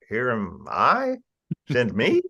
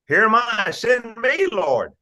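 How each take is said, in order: First: It is said in a doubtful, questioning way. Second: It is said in a confident, eager way.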